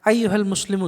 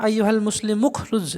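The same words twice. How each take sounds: First: আইয়ুহাল মুসলিমু said as its own phrase, pausing before the command; address set apart. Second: আইয়ুহাল Muslim উখরুজ run on with no pause after Muslim; wrong phrasing, run together. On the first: Teacher showing the right way, a separate address. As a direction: call out the address first, then stop. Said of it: "সম্বোধন করছি প্রথমে". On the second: Teacher showing students the wrong way, run-on phrasing. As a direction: rush the call straight into উখরুজ as one phrase. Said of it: "না, এটা এভাবে পড়া উচিত না". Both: Shown as a demonstration.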